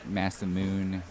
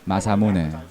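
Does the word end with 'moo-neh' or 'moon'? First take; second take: moon; moo-neh. First: The word ends in one syllable, 'moon'. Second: The word ends in two syllables, 'moo-neh'. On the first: The speaker calls it wrong. "It's not like Masamoon" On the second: The speaker calls it right.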